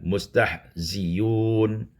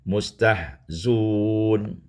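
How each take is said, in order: First: The hamza is replaced by a 'y' sound. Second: The hamza is dropped and 'z' takes 'u'. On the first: "hamzah ditukar ya dan didhammahkan" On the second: "membuangkan hamzah dengan mendhammahkan zai"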